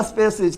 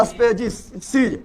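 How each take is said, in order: First: Said in the usual way. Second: species stretched out very slowly; slow dictation of species; drawn-out drilling. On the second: Shown as a demonstration. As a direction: say species slowly, sound by sound, for the class. Drilling the English term for class.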